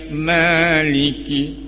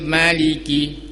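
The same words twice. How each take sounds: First: The first vowel is said long. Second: The first vowel is said short. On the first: The speaker calls it right. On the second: The speaker calls it wrong. "dibaca pendek semua hurufnya"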